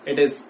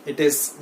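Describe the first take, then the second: No difference in how they are said.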